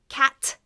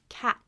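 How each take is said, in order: First: The final T is fully released. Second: The final T is stopped, not released. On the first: The speaker calls it wrong. "Not cat" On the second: The speaker calls it right. "you don't fully T"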